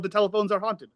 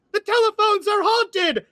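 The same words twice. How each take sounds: First: Said in the usual way. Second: High, sharp cry ringing out; sharp girl's voice. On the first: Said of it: "who just yelled". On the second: Acted. Girl yelling while running from a bear, sharp high cry. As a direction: ring it out as you run. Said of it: "a sharp girl's voice just ring out".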